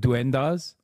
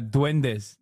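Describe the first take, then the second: First: The last syllable has an 'a' vowel. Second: The last syllable has an 'e' vowel. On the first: The speaker calls it wrong. "did I say it right?" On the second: The speaker calls it right. "duendes, not duendas"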